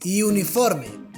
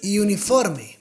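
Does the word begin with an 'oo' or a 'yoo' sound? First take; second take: yoo; yoo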